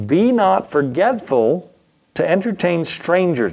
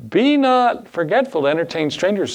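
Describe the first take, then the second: First: Slow, higher, solemn reading of the verse; measured pulpit recitation; scripture reading. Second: Higher, pointed mock rebuke; a homeless man's exasperated comeback; frustrated retort. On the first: Shown as a demonstration. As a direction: read it out like holy writ, slowly. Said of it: "Hebrews thirteen one". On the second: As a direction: throw the verse back at him in frustration. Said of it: "in his frustration".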